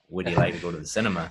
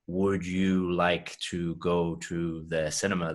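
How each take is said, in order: First: The words run together in connected speech. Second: Each word is said separately and carefully. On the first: The speaker calls it right. "everything links up together" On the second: The speaker calls it wrong. "native English speakers don't say things like"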